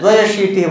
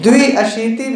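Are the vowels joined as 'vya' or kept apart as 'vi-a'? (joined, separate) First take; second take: joined; separate. First: The i and a merge into one 'vya' syllable. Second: The i and a are kept as separate syllables. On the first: The speaker calls it right. "जहां संधि हो सकती है वहां करना पड़ेगा" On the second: The speaker calls it wrong. "द्विअशीति भी बोल सकते हैं"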